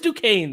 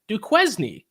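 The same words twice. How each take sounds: First: The name is pronounced the accepted way. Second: The name is pronounced as its spelling suggests. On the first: The speaker calls it right. "no, it is Duquesne though" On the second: The speaker calls it wrong. "as I used to pronounce them"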